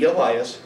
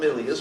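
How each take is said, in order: First: The name is pronounced the English way. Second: The name is pronounced the Japanese way. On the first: "So in English it'd be Elias" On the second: "would definitely call him Ilias because well she's Japanese"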